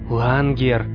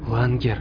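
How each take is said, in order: First: The name is called more loudly. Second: The name is called quietly. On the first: "уже громче сказала она" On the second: "тихо позвала Флориан"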